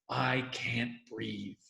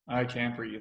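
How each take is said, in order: First: It is said with real, felt emotion. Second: It is said flatly, without feeling. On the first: The speaker truly cares. The speaker calls it right. "Make it real" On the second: The speaker does not really care. The speaker calls it wrong. "you just get"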